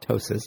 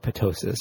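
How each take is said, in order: First: The word begins with a silent P. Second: The word begins with a sounded P. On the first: The speaker calls it right. "It's called ptosis" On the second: The speaker calls it wrong. "if you wanted to pronounce the T, but that's the P, but that's not how we say it"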